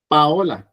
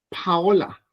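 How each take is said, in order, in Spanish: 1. La primera P es tensa, sin aire. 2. La primera P tiene un soplo de aire. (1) "con la doble P" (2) "la P con aire"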